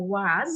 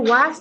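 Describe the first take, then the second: First: "ওয়াজ" like "wozz", voiced at the end. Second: The wrong "ওয়াজ", its end an unvoiced s. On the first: Teacher recaps the correct form, "ওয়াজ" ending in z. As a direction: say "ওয়াজ" with a buzzing final z. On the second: Teacher recaps the mistake to avoid, "ওয়াজ" ending in s. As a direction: say "ওয়াজ" like "wass". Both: Shown as a demonstration. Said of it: "হয়ে উচ্চারণটা হবে ওয়াজ".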